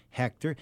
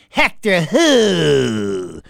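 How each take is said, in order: First: Said in the usual way. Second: Loud, hugely stretched "who"; ugly put-on challenge. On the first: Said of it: "she goes". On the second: Woman answering caller Hector on the phone, ugly and loud. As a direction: drag out WHO in an ugly put-on voice, falling away. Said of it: "she put on this real ugly".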